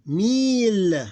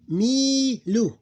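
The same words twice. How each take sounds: First: Mil high, loud and long, closed on L; sukoon ending. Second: Milu high and loud, long "mii" then short "lu"; open ending. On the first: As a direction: hold Mil and end without a vowel. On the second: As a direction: stretch the first syllable of Milu, then "lu". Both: Shown as a demonstration. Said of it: "This ignored becomes sukoon".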